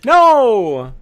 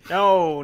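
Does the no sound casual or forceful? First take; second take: forceful; casual. First: The no is said forcefully and convincingly. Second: The no is said casually, without much force.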